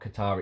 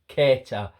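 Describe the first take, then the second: First: The name sounds like the country Qatar. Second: The name does not sound like the country. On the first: The speaker calls it wrong. "It's it's not Qatar" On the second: The speaker calls it right. "it's Keita"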